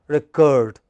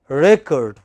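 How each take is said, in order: First: The stress is on the second syllable. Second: The stress is on the first syllable. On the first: It is used as a verb. "When it is verb, it is the second syllable which is stressed" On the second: It is used as a noun. "when it is a noun, it is the first syllable which is stressed. As noun, it is record"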